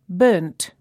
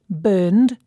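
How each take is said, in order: First: The word ends with a t sound. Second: The word ends with a d sound. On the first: "you can hear the D and T sounds at the end" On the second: "you can hear the D and T sounds at the end"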